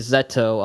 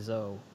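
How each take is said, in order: First: The name is said as Zeto. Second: The name is said as Zo. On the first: This is the official, proper reading. "I'll go kind of by the book and say Zeto" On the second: This is the casual, habitual reading. "I typically say Zo"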